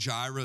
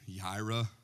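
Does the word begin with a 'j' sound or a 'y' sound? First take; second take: j sound; y sound. First: The word begins with a 'j' sound. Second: The word begins with a 'y' sound. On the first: The speaker calls it wrong. "the song Jireh" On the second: The speaker calls it right. "it's really Yireh"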